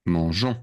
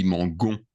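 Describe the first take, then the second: First: Mangeons with a soft "zh" in the middle; correct soft g. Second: Mangon with a hard "g" as in go; wrong hard g. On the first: Teacher giving the nous form of manger, soft-g mangeons. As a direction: say mangeons as mon-ZHON. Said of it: "Because otherwise, it would be". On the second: Teacher showing what it would be without the E, hard-g mangon. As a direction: say mangon as mon-GON, hard g. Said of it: "Doesn't sound right". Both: Shown as a demonstration.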